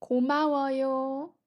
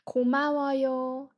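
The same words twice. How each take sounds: First: 고마워요 with a rising end; Korean thank you. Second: 고마워요 quick and fluent; Korean thank you. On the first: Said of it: "Thank you for watching this". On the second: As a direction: model 고마워요 for students. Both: Shown as a demonstration.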